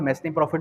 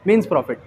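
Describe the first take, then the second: First: The first word sounds like 'mes-nee' with s. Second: The first word sounds like 'mean' without s. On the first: The speaker calls it wrong. "मैसनी profit भी पढ़ा जाता है" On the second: The speaker calls it right. "इसकी pronunciation क्या है?"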